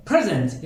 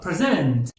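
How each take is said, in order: First: پرزنت as the noun, PRE-zent; stress on first syllable. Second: پرزنت as the verb, pre-ZENT; stress on second syllable. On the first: Teacher repeats the noun form, پرزنت stressed up front. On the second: Teacher repeats the verb form, پرزنت stressed at the end. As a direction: hit the last syllable of پرزنت. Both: Shown as a demonstration. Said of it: "استرسی که روی این کلمات".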